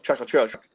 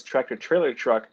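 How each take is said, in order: First: "tractor trailer truck" slurred to a mess of consonants; mushed into one word. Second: Said in the usual way. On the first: Shown as a demonstration. Showing how New Jersey says it, "tractor trailer truck" as one mushed word. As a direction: run "tractor trailer truck" together, swallowing syllables. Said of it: "We just mush it together". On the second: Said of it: "all as one word".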